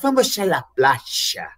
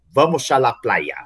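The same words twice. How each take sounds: First: It is said in an Argentine Spanish accent. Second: It is said in a Spain Spanish accent.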